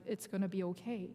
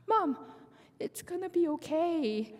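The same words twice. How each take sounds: First: Said in the usual way. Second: High little voice fighting tears; imitated child holding back tears. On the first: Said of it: "she's encouraging me". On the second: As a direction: play a small child comforting mom, nearly crying. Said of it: "she tried not to cry".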